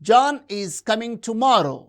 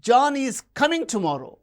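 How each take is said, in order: First: No single word gets special contrastive stress. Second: The stress falls on the word coming. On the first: It is a plain statement of fact. "It is a normal statement" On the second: He is arriving rather than leaving. "He is not going"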